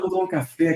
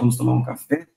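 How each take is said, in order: First: The invitation sounds light and relaxed. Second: The invitation sounds serious and weighty. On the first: It is a friendly, easygoing invitation. "coisa mais branda" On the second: A serious talk is coming. "a conversa pode ser mais séria mesmo"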